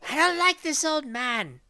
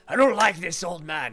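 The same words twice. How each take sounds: First: It is said in a higher, feminine voice. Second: It is said in a burly male voice.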